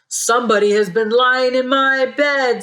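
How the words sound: It is said in a loud, big voice.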